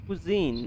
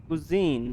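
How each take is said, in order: No difference in how they are said.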